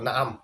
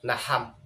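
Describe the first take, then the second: First: Both vowels are a, with a throat sound between. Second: Both vowels are a, with an h between. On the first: "নুনেও জবর আইনেও জবর" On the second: "আইনকে হা দ্বারা পরিবর্তন করে"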